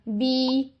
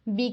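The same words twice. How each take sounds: First: The vowel is stretched, held two counts. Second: The vowel is short, held one count. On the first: The speaker calls it wrong. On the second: The speaker calls it right.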